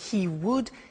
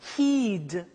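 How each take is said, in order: First: It is said as two full words, 'he would'. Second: It is shortened into one syllable, 'he'd'.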